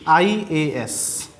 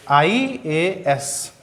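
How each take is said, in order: First: IAS stretched very slowly, letter by letter; drawn-out example. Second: IAS said very slowly, each letter held; drawn-out example. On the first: Teacher giving IAS as an example, very slowly. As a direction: spell out IAS slowly for the class. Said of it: "जैसे अब हम बहुत सारे example देंगे". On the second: Teacher repeating IAS for the class, very slowly. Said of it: "उच्चारण भी देख लीजिए". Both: Shown as a demonstration.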